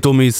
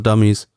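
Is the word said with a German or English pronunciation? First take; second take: German; English. First: The word is said with German pronunciation. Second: The word is said with English pronunciation.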